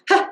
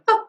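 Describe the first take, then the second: First: The onset has an audible breathy h. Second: The onset is clean with no breathiness. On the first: The speaker calls it wrong. "We don't want ha" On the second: The speaker calls it right. "We want ha ... There's no perceptible breathiness in the sound"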